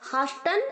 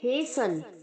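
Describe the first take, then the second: First: First vowel is 'ah' and the t is sounded. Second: First vowel is 'ay' and the t is silent. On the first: The speaker calls it wrong. "हास्टन और हासन दोनों नहीं कहेंगे" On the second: The speaker calls it right. "हम कहेंगे हेसन"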